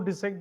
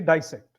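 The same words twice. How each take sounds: First: It is said in an English pronunciation. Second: It is said in an American pronunciation. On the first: "because we follow English uh, form of pronunciation" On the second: "If it's American, they will say dissect"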